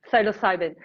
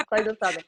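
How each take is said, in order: First: Psilocybin as sigh-loh-SIGH-ven, said carefully; trying Psilocybin right, sigh-loh-SIGH-ven; careful pronunciation. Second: Psilocybin with Italian accent, sigh-doh-SIGH-ven. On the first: Shown as a demonstration. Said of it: "It has to be correct". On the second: Real, not acted. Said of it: "It sounds better with your Italian accent".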